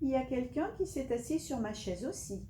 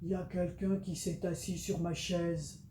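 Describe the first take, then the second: First: It is said in a soft, gentle voice. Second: It is said in a big, deep voice.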